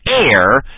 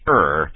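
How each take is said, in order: First: The vowel sounds like the word air. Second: The vowel sounds like the word her. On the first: The speaker calls it wrong. "I know you're used to hearing it pronounced air" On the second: The speaker calls it right. "It's pronounced err"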